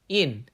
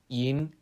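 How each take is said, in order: First: The pitch falls sharply downward. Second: The pitch rises upward.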